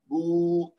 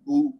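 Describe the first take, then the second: First: The vowel is drawn out long. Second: The vowel is kept short. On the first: The speaker calls it wrong. "बू ऐसे नहीं पढ़ना" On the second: The speaker calls it right. "बा पेश बू"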